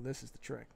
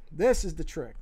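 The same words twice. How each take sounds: First: Said in the usual way. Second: THIS punched much louder; emphatic repeat. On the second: Real, not acted. Artist flagging the key step to viewers, loud stress on "This". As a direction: hit "This" hard, then let "is the trick" fall.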